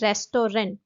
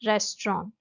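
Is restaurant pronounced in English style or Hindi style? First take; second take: Hindi style; English style. First: The word is pronounced the Hindi way. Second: The word is pronounced the English way. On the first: The speaker calls it wrong. "Hindi में मैंने लिखा है रेस्टोरेंट" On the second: The speaker calls it right. "Correct pronunciation जो होता है वो होता है रेस्टोरेंट"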